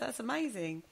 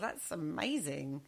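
First: The tone sounds sincere and convinced. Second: The tone sounds sarcastic and unconvinced. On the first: The speaker seems to mean it. The speaker calls it right. "I sounded a bit more credible then" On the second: The speaker seems not to mean it. The speaker calls it wrong. "You sounded so sarcastic then"

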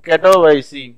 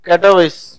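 First: The name ends in an added 'see' syllable. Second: The name ends in a plain 's' sound. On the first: "so pronunciation is கட்டோவைசி" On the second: "கட்டோவைஸ் அப்படின்றது உங்களுக்கு ப்ரொனவுன்ஸ் பண்ற ஈஸி"

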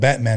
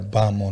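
First: The name is said in a plain accent. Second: The name is said in a Boston-type accent. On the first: "he didn't call him Batman" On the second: "some type of Boston accent"

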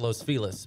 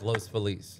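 First: The name is said the way locals pronounce it. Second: The name is said the way it is spelled. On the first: This is how people there actually say it. "They actually pronounce it Los Feliz" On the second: This follows the written form of the name. "but it's spelled like Los Feliz"

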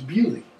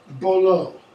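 First: The name is pronounced the local way. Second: The name is pronounced the American way. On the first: The speaker calls it right. "It's not, it's Beaulieu" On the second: The speaker calls it wrong. "They say Bolo"

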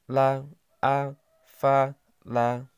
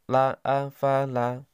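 First: The syllables are read slowly, one by one. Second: The syllables are read quickly, run together.

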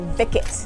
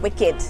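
First: The word begins with a V sound. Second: The word begins with a W sound. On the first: "in the words of my mother" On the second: "they're not wicked"

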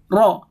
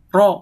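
First: The r is trilled long, with many vibrations. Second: The r is trilled briefly, with few vibrations. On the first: The speaker calls it wrong. "tidak boleh ro seperti itu, gak boleh" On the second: The speaker calls it right. "Tidak boleh ada getaran lebih dari tiga getaran"

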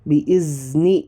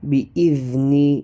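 First: The middle consonant is a buzzing z. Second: The middle consonant is a th-like sound. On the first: The speaker calls it wrong. "ബി ഇസ്നി എന്ന് ഓതാൻ പാടില്ല" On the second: The speaker calls it right. "നാവിൻ്റെ അറ്റം മുകളിലെ പല്ലുകളുടെ അറ്റത്ത്"

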